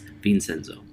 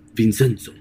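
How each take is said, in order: First: The name is said with an English pronunciation. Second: The name is said with an Italian pronunciation. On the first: "And in English, it's Vincenzo" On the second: "it's Vincenzo in Italian"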